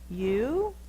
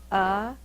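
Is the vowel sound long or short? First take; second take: long; short. First: The vowel is said long, like 'you'. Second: The vowel is said short, like 'uh'. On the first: The speaker calls it wrong. "that's an open syllable, so the vowel should be long" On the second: The speaker calls it right. "The vowel is short"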